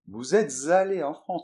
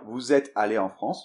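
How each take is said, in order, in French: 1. Un son z lie êtes à allé. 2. Aucun son z ne lie êtes à allé. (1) "tout de suite. Ah, tout de suite, là, c'est autre chose" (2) "on n'est pas obligé de la faire. Donc, on aurait pu dire"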